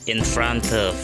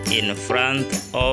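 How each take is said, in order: First: The words are linked together smoothly. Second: The words are said separately with breaks.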